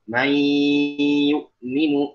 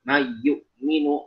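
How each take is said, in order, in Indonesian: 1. Bunyi y yang ganda itu berdengung. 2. Bunyi y yang ganda itu tidak berdengung. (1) "seharusnya dengan gunnah"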